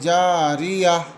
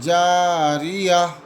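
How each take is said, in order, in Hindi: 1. शब्द नरम 'h' की आवाज़ पर रुकता है। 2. शब्द नरम 'h' की आवाज़ पर रुकता है।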